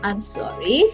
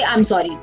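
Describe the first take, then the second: First: It is said softly, with sincere apologetic feeling. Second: It is said carelessly, without apologetic feeling. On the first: The speaker calls it right. "you say" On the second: The speaker calls it wrong. "Do you say that? No"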